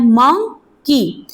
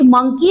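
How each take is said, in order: First: मंकी very slowly in two parts, मं... की; syllable by syllable. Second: Said in the usual way. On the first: Shown as a demonstration. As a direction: split मंकी with a clear pause mid-word. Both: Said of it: "इसके अंदर भी two syllable हैं".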